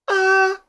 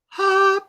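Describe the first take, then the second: First: The vowel starts with a sharp catch in the throat. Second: The vowel starts with a breathy puff of air. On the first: "which is a glottal shock" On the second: "that's aspirate attack"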